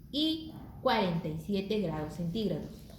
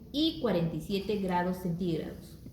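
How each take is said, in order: No difference in how they are said.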